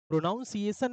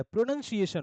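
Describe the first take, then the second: First: "प्रोनाउंसिएशन" with the -nounce- vowel of pronounce, marked wrong; wrong pronunciation. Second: "प्रोनंसिएशन" with short "nun" not "nounce"; correct pronunciation. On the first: Teacher showing students the wrong "प्रोनाउंसिएशन". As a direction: say "प्रोनाउंसिएशन" as the error, stressing "nounce". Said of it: "प्रोनाउंसिएशन नहीं होता है". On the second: Teacher modelling correct "प्रोनंसिएशन" for the class. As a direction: say it right: "प्रोनंसिएशन", pro-nun-si-ay-shun. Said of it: "प्रोनंसिएशन होता है". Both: Shown as a demonstration.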